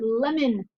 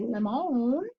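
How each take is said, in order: First: The last syllable has a weak, reduced vowel. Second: The last syllable has a full, clear vowel. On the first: The speaker calls it right. "I say lemon" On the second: The speaker calls it wrong. "I don't say lemon"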